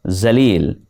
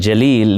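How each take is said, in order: First: The name begins with a z sound. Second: The name begins with a j sound. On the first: The word means disgraced. The speaker calls it wrong. "Even more embarrassing" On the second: The word means majestic. The speaker calls it right. "meaning majestic"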